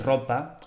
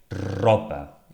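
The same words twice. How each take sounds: First: It is said quickly in ordinary fluent speech. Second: It is said slowly with an exaggerated R. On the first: "como estoy hablando, de forma fluida" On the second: "Intentaría pausarme y eh, exagerar un poco el fonema"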